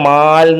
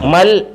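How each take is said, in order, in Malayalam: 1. 'm'ന് ശേഷമുള്ള സ്വരം നീട്ടി ദീർഘമായി പറയുന്നു. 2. 'm'ന് ശേഷമുള്ള സ്വരം ചെറുതായി പറയുന്നു.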